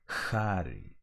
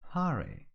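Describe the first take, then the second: First: The H is harsh and forced. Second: The H is gentle and light. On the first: The speaker calls it wrong. "it shouldn't sound like hurry" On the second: The speaker calls it right.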